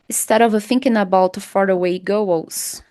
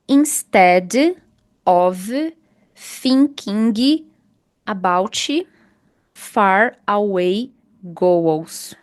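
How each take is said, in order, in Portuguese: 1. As palavras são emendadas suavemente uma na outra. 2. As palavras são ditas separadamente, sem emendar. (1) "Não é bem melhor você falar" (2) "É bem melhor do que você falar assim, ó"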